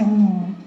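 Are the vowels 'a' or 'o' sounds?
o. The vowels are rounded 'o' sounds. This is the standard Javanese form. "di Jogja berubah menjadi songo"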